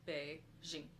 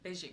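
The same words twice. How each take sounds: First: The first syllable dips and bounces in pitch. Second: The first syllable stays flat without a dip. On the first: "there's a bit of a bounce to the be, because it's the E is like, it's got the third tone" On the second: "no one's going to fault you if you say just Beijing"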